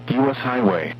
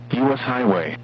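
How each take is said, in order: Both takes have the same delivery.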